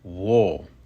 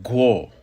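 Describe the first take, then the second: First: The word begins with a plain w sound. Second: The word begins with a gw sound. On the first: "which is wo" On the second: "may also be pronounced guo"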